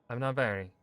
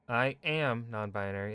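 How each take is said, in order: First: It sounds short, clear and confident. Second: It sounds weak and uncertain.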